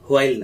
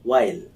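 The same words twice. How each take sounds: First: The word starts with an h sound. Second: The word starts with a plain w sound. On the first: The speaker calls it wrong. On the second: The speaker calls it right.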